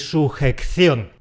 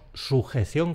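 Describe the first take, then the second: First: It is said with an extra k sound. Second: It is said with a single c sound. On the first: The speaker calls it wrong. "No quiero oír" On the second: The speaker calls it right. "con una sola C"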